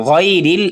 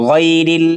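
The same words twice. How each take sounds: No difference in how they are said.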